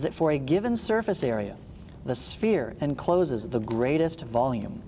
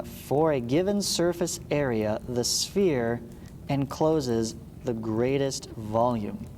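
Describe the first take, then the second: First: Said in the usual way. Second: Slow, spaced out so students can write it down; slow dictation. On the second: Shown as a demonstration. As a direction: dictate it slowly word by word. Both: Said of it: "Write that down".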